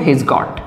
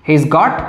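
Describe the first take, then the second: First: 'Has' is contracted and joined onto 'he'. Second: The same.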